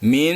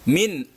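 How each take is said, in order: First: The final n is blurred and nasal, not fully pronounced. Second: The final n is pronounced clearly and fully. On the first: The speaker calls it wrong. "tidak boleh dibaca min. Nah, itu namanya samar, bukan jelas" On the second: The speaker calls it right. "Jadi bacanya jelas, nun jelas"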